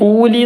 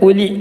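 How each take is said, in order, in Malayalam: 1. ആദ്യ സ്വരം നീട്ടിപ്പിടിക്കുന്നു. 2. ആദ്യ സ്വരം ഹ്രസ്വമായി നിലനിർത്തുന്നു. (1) "ഊലി എന്ന് വായിക്കരുത്"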